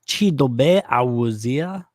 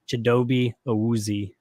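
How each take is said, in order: First: The name keeps its original, non-English pronunciation. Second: The name is said with an anglicized pronunciation. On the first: This is how the name is really pronounced. "his actual pronunciation is" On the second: This is the version used for English speakers. "like English or American version"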